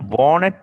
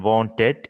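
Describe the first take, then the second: First: "wanted" with the T dropped, as "wan-ned"; native-style "wanted" without a middle T; accented reduced form. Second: "Wanted" with a clear middle T; careful non-native "Wanted", T sounded; full pronunciation. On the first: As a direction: skip the T in "wanted". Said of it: "is the accent". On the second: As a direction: say "Wanted" as "wan-ted", both syllables full. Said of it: "is the correct pronunciation". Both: Shown as a demonstration.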